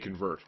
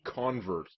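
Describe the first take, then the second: First: The stress is on the second syllable. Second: The stress is on the first syllable. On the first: It is the ordinary verb meaning to change something. "Normally you would say convert" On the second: It names a person who changed religion. "a convert is actually a way you would pronounce it if you're talking about someone who was converted"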